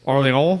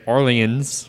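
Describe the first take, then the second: First: It is said with a French accent. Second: It is said with an American accent.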